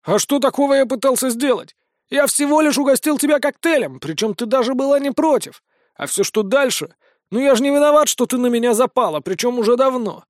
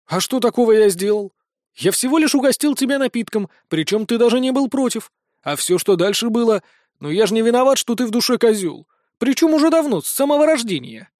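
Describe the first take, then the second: First: Smug mocking. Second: Mocking Vincent. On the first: Vincent smug, mocking denial. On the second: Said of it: "имитируя ненатуральность удивления самого Винсента".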